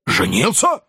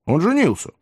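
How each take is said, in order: First: Rising, stunned question; heated exclamation. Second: Said in the usual way. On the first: A narrator's reading. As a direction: throw it back in disbelief. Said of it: "с жаром воскликнул Потт".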